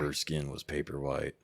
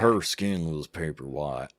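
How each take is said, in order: First: It is said without a Southern US accent. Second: It is said in a Southern US accent.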